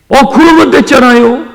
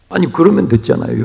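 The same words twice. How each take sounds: First: Excited exclaim. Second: Said in the usual way. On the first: Real, not acted. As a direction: exclaim 그러면 higher and louder. Exclaimed conclusion, then repeated plainly.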